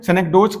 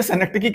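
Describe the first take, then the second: First: Synecdoche said as "senek-doach"; variant pronunciation. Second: Synecdoche said as "senek-t-kee"; preferred pronunciation. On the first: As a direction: end synecdoche in "doach", rhyming with coach. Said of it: "कहते हैं कुछ लोग". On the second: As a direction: end synecdoche in "kee", with a t before it. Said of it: "मैं इसे synecdoche कहता हूं". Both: Shown as a demonstration.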